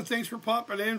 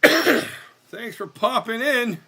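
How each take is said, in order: First: Said in the usual way. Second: Drawn-out thanks. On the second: Pretend. Drawn-out repeat of greeting.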